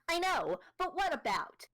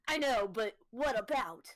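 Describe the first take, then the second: First: It is said in a nasal voice. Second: It is said in a deep, suave voice.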